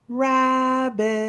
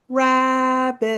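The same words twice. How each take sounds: First: The name is called in a quiet voice. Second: The name is called a little louder.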